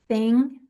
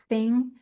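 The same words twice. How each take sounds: First: The word starts with a soft breathy th. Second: The same.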